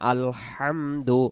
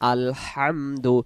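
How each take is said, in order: First: The l runs straight into hamdu. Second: The same.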